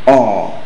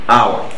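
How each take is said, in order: First: The word sounds like 'or', one vowel sound. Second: The word sounds like 'our', with a diphthong. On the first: The speaker calls it right. "The correct pronunciation is or" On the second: The speaker calls it wrong. "this word is pronounced our. That is wrong"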